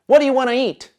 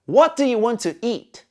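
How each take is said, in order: First: The words run together in a reduced form. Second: Each word is said fully and separately.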